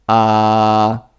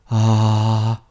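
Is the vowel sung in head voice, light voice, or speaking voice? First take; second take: speaking voice; light voice. First: The vowel is said in a full speaking voice. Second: The vowel is said in a thin, light voice. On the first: The speaker calls it right. "como si hablaras" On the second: The speaker calls it wrong. "Asegúrate de no hacerla demasiado ligera"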